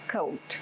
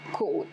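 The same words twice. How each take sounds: First: The vowel glides from o toward u. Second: The vowel is one steady sound. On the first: The speaker calls it right. "It's coat" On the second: The speaker calls it wrong. "It is not coat"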